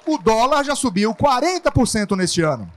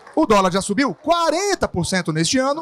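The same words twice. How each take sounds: First: The emphasis falls on the word dólar. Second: The emphasis falls on quarenta por cento. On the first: The currency is what matters. "Na primeira frase, eu quero chamar a atenção para a moeda dólar" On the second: The size of the rise is what matters. "Na segunda, a porcentagem"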